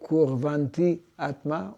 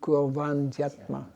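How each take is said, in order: First: The two vowels are kept apart as two words. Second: The two vowels are merged into one word. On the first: The speaker calls it wrong. "on ne dit pas Kurvanti Atma" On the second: The speaker calls it right. "on dit Kurvantyatma"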